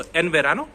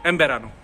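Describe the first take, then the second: First: एन said with a clear n before बेरानो; plain n. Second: एम said as em, lips closed into बेरानो; m before b. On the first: Teacher shows the plain way, clear n. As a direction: keep the n in एन. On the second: Teacher shows the native way, em. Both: Shown as a demonstration. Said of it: "मैं ले रहा हूँ मैं".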